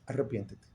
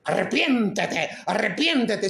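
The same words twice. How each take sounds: First: "Arrepiéntete" said very softly and low, almost under the breath; a soft murmured "Arrepiéntete"; gentle, quiet. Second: Slow, drawn-out stern call to repent; a hint of a scolding preacher; mock harsh preacher. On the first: Shown as a demonstration. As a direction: invite them to repent, tenderly. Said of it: "te estoy diciendo". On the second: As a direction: play the finger-wagging preacher, lightly. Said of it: "sin decirte".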